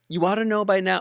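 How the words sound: It is said softly and gently.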